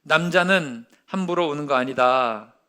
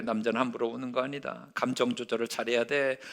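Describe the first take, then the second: First: Said in the usual way. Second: Low, much softer stern father's lesson; a hushed, lower father laying down the rule. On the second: Retold or imitated. Father teaching his son, in a low hushed stern voice. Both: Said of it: "이런 식으로 얘기를 하는 거예요".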